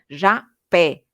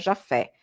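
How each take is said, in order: First: The middle consonant is a P sound. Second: The middle consonant is an F sound. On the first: The speaker calls it right. "como com P, não com F" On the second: The speaker calls it wrong. "não se pronuncia Jaffé"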